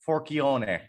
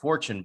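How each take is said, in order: First: The name is said with an Italian pronunciation. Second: The name is said with an anglicized pronunciation. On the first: This is the original pronunciation. "the Italian way to say it is Forchione" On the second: This is the altered family pronunciation. "they changed the pronunciation of Forchione"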